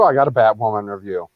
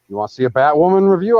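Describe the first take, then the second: First: Falling statement, stress on I; plain statement. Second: Rising question on review; teasing question. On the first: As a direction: answer it flat with a falling end. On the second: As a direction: ask it with a lifted, eager rise on review. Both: Shown as a demonstration.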